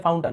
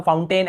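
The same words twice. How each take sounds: First: फाउंटन ending in a short "tun"; reduced last vowel in फाउंटन. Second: फाउंटेन ending in a long "tain"; full "ay" vowel at the end of फाउंटेन; alternative pronunciation. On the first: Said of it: "यहाँ पर भी अ उच्चारण हो रहा है". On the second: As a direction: say फाउंटेन as "foun-TAYN". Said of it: "ऐसे बोल देते हैं". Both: Shown as a demonstration.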